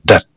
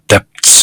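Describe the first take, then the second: First: The B sound is left out entirely. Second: The B sound is pronounced before the T. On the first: The speaker calls it right. "B는 완전히 무시하고 debt 그렇게 발음하는 것이죠" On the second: The speaker calls it wrong. "이렇게 발음하지 않고"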